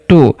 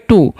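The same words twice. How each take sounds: First: "टू" said with a short clipped o, the students' mistake; wrong short reading. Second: "टू" said with a long drawn oo; correct long reading. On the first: Teacher showing students the wrong short reading. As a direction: read "टू" as a short to-sound, the wrong way. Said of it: "बहुत सारे students से गलती पढ़ लेंगे". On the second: Teacher giving students the correct long oo. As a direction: stretch the vowel in "टू" long, the right way. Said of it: "उसका उच्चारण दीर्घ करना होता है". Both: Shown as a demonstration.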